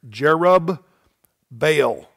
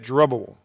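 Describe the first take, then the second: First: The name is split into two parts. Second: The name is run together as one word. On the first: "I'm going to divide the word between the two B's right there" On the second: "we say it Jerubbaal, usually"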